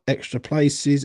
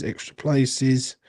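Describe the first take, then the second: First: Said in the usual way. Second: Slow, drawn-out repeat; slow drawl. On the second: Shown as a demonstration. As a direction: stretch the words out slowly.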